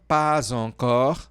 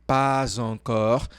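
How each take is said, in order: The two takes are said the same way.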